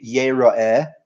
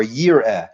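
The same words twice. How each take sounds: First: "Yera'eh" in three drawn-out syllables; first reading. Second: "Yir'eh" in two slow syllables; second reading. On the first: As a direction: say "Yera'eh" slowly with a vowel after the r. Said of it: "It could be read". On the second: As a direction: say "Yir'eh" with no vowel after the r. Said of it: "could be written both ways". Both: Shown as a demonstration.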